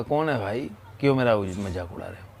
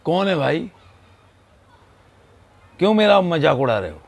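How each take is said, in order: First: Echo. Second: Loud, high angry yell; angry shout. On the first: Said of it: "तो उधर से फिर इको हुआ". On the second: Boy yelling at the echo, angry shout. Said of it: "उसने ज़ोर से चिल्ला कर बोला". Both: Retold or imitated.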